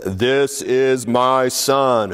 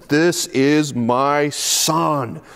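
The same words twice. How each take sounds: First: Slow, solemn first proclamation; unhurried, lightly voiced divine words; voice of God. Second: Very slow, drawn-out divine announcement; a lightly voiced, slow solemn God. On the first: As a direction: announce it gravely from the cloud. First telling of the voice. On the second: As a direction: stretch each word like a voice from heaven. God's voice comes in the cloud.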